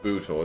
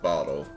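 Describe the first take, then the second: First: The vowel is a long oo sound. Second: The vowel is a short o sound. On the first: The speaker calls it right. "I think that's pronounced like Bootle" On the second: The speaker calls it wrong. "It's not bottle. You got two O's in there"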